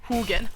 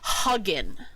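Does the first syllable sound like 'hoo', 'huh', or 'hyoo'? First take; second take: hoo; huh. First: The first syllable sounds like 'hoo'. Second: The first syllable sounds like 'huh'. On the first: The speaker calls it right. "like, who who are you?" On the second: The speaker calls it wrong. "I'm gonna be hugging you later"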